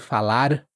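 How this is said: The final R is barely heard. "você também quase não vai ouvir"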